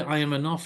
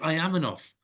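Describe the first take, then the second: First: It is said plainly, without much energy. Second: It is said with lively energy.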